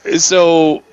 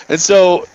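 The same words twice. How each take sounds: The two takes are said the same way.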